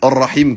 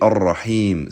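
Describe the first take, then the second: First: The vowel in the last syllable is cut short. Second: The vowel in the last syllable is held long. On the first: It means the uterus. The speaker calls it wrong. "si vous faites pas la prolongation du I" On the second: It means the merciful one. The speaker calls it right. "quand on dit Ar-Rahim, c'est le miséricordieux"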